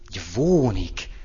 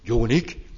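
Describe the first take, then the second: First: It is said with a v sound. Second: It is said without a v sound. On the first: This is how Palóc women say it. "Van ott egy V betű" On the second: This is the standard pronunciation. "az nem úgy szól, hogy jónik"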